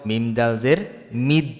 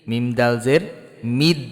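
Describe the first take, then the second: Both takes have the same delivery.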